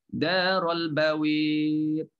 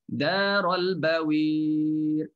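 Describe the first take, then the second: Both takes have the same delivery.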